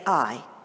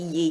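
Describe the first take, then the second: First: It is said as a single 'eye' sound. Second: It is said with a 'y' sound before the vowel. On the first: The speaker calls it right. "So you would say I" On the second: The speaker calls it wrong. "You don't say"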